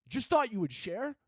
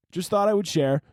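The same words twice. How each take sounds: First: High, soft, disbelieving question; incredulous echo. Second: Lightly raised, offhand voice; casual lady imitation. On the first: Acted. Confronting the cat lady, incredulous. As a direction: repeat it back in hushed disbelief. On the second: Lady in the video signing off, mimicked casually. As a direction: toss it off as a casual share. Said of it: "the lady in the video was like".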